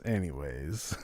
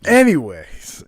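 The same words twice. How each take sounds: First: Anyways muttered low and much softer, trailing off; soft mumble. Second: A loud, emphatic anyways to push past the slip; loud reset. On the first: Co-host mumbles softly, deflated after his own slip. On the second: Co-host loudly pushes past his own embarrassing slip, emphatic. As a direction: announce the change of subject with a loud anyways. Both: Acted.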